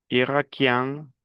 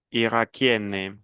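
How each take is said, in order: First: "Irakien" slowly, ending nasal; model pronunciation. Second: "Irakienne" slowly, with a clear final n; model pronunciation. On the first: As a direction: end "Irakien" through the nose. ("Irakien" lento, con final nasal) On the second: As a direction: sound the n in "Irakienne". ("Irakienne" lento, con la n clara) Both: Shown as a demonstration.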